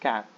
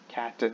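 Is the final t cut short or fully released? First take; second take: cut short; released. First: The final t is cut short. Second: The final t is fully released. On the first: The speaker calls it right. "the T is, I guess, not fully pronounced" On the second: The speaker calls it wrong. "It's not cat"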